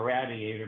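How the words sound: The first syllable sounds like 'rad', Pittsburgh-style.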